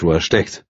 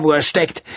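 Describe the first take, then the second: First: Said in the usual way. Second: High, scornful ending. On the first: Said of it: "repeated phrase". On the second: A narrator's reading. Woman scorning where the writer is. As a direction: toss it off with contempt. Repeated angrily.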